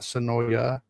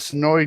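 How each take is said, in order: First: The name ends with an extra final vowel sound. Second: The name ends without a final vowel sound. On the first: The speaker calls it wrong. "not Sonoya" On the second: The speaker calls it right. "The people that live there say it's Sonoy. The A is silent"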